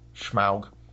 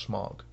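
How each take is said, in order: First: The vowel sounds like the one in cow. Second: The vowel sounds like the one in fog. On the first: This is how the newer film says it. The speaker calls it right. "I like the pronunciation in this one better" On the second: This is how the old cartoon said it. The speaker calls it wrong. "When I was a kid, it was Smog"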